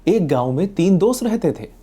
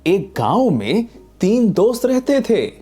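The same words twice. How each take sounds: First: It is said plainly and simply. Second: It is said in a lively storytelling tone. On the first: "simple" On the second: "बच्चों के लिए story telling"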